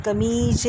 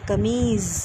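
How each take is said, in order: First: कमीज ending in a hard j; wrong pronunciation. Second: कमीज ending in z, kameez; correct z sound. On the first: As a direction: say कमीज as kameej with j. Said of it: "कमीज नहीं बोलते". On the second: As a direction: end कमीज on a buzzing z. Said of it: "ज की ध्वनि है". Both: Shown as a demonstration.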